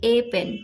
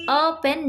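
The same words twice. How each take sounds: First: ए pen with the article as a full long "ay"; wrong long ay. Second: अ pen with the article as a short neutral "uh". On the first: Teacher showing students the wrong way, ए said as full "ay". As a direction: stretch ए into a clear "ay" before pen. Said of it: "ना कि ए pen". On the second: Teacher showing students the correct article, अ said as short "uh". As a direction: say अ as a quick weak "uh" before pen. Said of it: "हम बोलते हैं अ pen, ना कि ए pen". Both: Shown as a demonstration.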